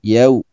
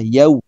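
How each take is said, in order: No difference in how they are said.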